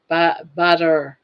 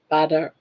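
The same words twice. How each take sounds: First: Southern "butter" slow and leaning. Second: Southern "Butter" as padda. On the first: Scene: Southern caller repeating butter slowly. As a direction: draw out "butter" Southern style, no r. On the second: Scene: Southern caller demonstrating her word, Southern. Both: Shown as a demonstration. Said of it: "I'm Southern".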